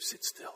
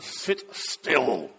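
First: It is whispered softly and politely. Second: It is said aloud, firm and stern. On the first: A gentle, polite request. "I just whispered it very politely" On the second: A firm command after patience ran out. "with all the graciousness that only a father and rector can manage"

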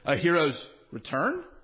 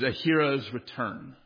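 First: It is said as a doubtful question. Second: It is said as a plain statement. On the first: It doubts whether this is really a hero's return. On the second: It is simply the title of the heading.

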